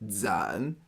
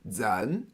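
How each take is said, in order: First: The pitch dips low then rises. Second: The pitch rises from middle to high.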